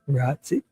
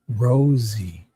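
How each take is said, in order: First: The name starts with a short 'ut' vowel. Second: The name starts with a long 'rose' vowel. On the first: The speaker calls it wrong. "He's probably saying it wrong" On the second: The speaker calls it right. "like a rose"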